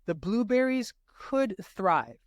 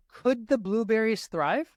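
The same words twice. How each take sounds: First: Slow statement, falling at the end; statement read aloud. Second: Higher, slow question rising at the end; direct question. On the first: Tutor reads the correct indirect answer choice, slow falling tune. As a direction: read it as a plain statement, slowly. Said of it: "This is written correctly". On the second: Tutor reads the correct direct question choice, slow rising tune. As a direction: ask it clearly, pitch climbing to the end. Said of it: "tells us this is a direct question". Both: Shown as a demonstration.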